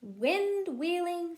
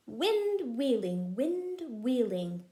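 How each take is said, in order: First: Said in the usual way. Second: Slow Wind wheeling, each W leaned on; stress the W sounds. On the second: Shown as a demonstration. Teaching her child alliteration, stressing the W in Wind wheeling. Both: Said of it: "They both start with the letter W".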